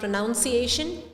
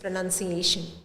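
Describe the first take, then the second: First: The second syllable sounds like 'noun'. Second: The second syllable sounds like 'nun'. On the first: The speaker calls it wrong. "It's not" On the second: The speaker calls it right. "It's"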